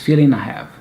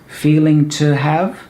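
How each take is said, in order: First: The word to is reduced and linked. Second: The word to is said in full.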